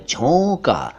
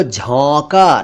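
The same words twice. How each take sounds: First: झोंका with a rounded long "o"; first vowel of झोंका a pure "oh"; correct झोंका. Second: झोंका with open "au" in place of "o"; drawn-out झोंका, first vowel like "aw"; mispronounced झोंका. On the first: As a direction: say झोंका as "jhonka". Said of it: "ये झोंका है". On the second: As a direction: say झोंका wrongly as "jhaunka". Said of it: "इसको झोंका न कहा करें". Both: Shown as a demonstration.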